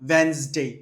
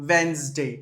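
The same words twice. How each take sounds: The two takes are said the same way.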